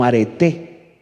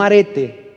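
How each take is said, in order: First: Arete slow, stressed on the final e, a-re-TÉ; right stress. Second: Arete stressed on the first syllable, ARE-te; wrong stress. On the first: Pastor teaches the congregation the correct stress on arete. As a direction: draw out arete with the accent on the last e. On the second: Pastor shows the congregation the wrong stress on arete. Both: Shown as a demonstration. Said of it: "Tilde en la última E".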